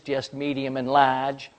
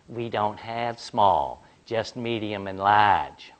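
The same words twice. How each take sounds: First: Mocking repeat. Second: Slow, careful explaining to a customer; patient clerk. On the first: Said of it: "starts to unload". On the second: Retold or imitated. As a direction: lay it out slowly like a polite clerk. Clerk explains the soda sizes.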